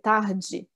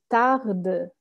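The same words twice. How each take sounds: First: The final d sounds soft, like 'dj'. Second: The final d sounds hard and clear. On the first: "das ist wie eine DJE" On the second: "so ganz, ganz klar"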